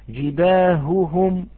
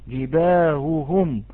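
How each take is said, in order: No difference in how they are said.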